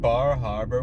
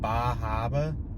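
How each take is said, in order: First: It is said in the speaker's plain accent. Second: It is said in a put-on Boston accent.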